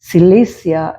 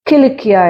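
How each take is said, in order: First: The first consonant is an s sound. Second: The first consonant is a k sound.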